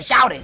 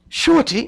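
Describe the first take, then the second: First: The word is said with an Atlanta pronunciation. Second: The word is said with a Northern pronunciation. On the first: The speaker is from Atlanta. The speaker calls it right. "we say shouty" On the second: The speaker is not from Atlanta. The speaker calls it wrong. "when people come down from the from the north, they was like"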